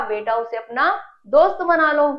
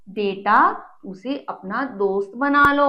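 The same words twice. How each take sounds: First: Said in the usual way. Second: Loving advice. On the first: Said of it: "mummy ने क्या कहा". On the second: Acted. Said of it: "mummy ने उसे प्यार से समझाते हुए कहा".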